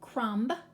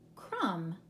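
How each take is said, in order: First: A b sound is pronounced at the end. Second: The word ends on the m sound. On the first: The speaker calls it wrong. "We're not going to pronounce it crumb" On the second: The speaker calls it right. "we'll just leave the B off. It's silent"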